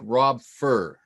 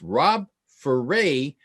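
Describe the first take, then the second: First: The surname sounds like 'fur', ending without 'ay'. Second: The surname ends in 'ay', rhyming with hooray. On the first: The speaker calls it wrong. "If you read it off the page, it looks like Rob Fur" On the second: The speaker calls it right. "he said it's Rob Foray, rhymes with hooray"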